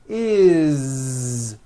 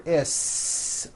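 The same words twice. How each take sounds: First: It ends with a buzzing, voiced z sound. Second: It ends with a hissing, unvoiced s sound. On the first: The speaker calls it right. "with a voiced Z" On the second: The speaker calls it wrong. "unvoiced, never"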